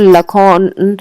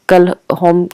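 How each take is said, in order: First: The name starts without a K sound. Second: The name starts with a K sound. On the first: "या तो के silent है इसमें" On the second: "अगर के बोला जा रहा है"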